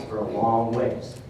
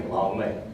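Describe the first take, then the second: First: Said in the usual way. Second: "long" said low and soft for emphasis; "long way" low, quiet and weighty; stress on LONG. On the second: Real, not acted. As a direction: drop the voice and lean on "long". Repeats with "I mean" for emphasis.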